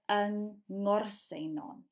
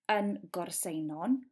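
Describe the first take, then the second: First: The place name begins with a nasal NG sound. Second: The place name begins with a hard G sound. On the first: The speaker calls it right. "but yng Ngorsenon" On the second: The speaker calls it wrong. "So you wouldn't say yng Gorsenon"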